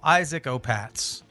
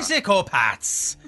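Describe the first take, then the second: First: It is said in his plain accent. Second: It is said in a cliché Irish accent.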